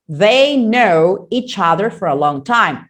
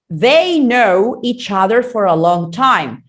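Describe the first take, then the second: First: The 've and final n sounds are dropped. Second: The 've and final n sounds are dropped.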